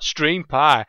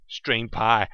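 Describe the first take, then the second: First: Stream Pie said louder, relishing pie; proud little repeat of Stream Pie; savouring the name. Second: Said in the usual way. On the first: Shown as a demonstration. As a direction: try the name out again, pleased with it. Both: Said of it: "I like that".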